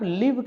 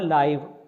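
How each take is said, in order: First: The vowel sounds like the one in 'it'. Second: The vowel sounds like the one in 'eye'. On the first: It means to reside or dwell somewhere. "अगर आप लिव कहते हैं तो वो meaning बदल जाता है" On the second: It describes something broadcast directly, as it happens. "तो ये हुआ लाइव"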